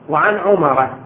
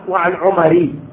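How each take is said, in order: First: The name ends with a short a vowel. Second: The name ends with a short i vowel. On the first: The speaker calls it right. "نقرأ إحنا مثلاً روايات في كتب أخواننا السنة وعن عمر بن الخطاب" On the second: The speaker calls it wrong. "ما نقرأ"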